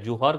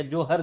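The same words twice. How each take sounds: First: जुहर said with an "u" in the first syllable; pronunciation variant. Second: जोहर said with an "o" in the first syllable; alternative pronunciation. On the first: Teacher naming the noon prayer, जुहर pronounced with an "u". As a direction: say जुहर as "ju-har", with an oo vowel. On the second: Teacher giving the other name for noon prayer, जोहर pronounced with an "o". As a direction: say जोहर as "jo-har", with an oh vowel. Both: Shown as a demonstration. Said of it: "pronunciation जो है वह ... पर अलग-अलग होता है".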